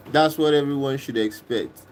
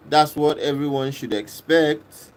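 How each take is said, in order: Both takes have the same delivery.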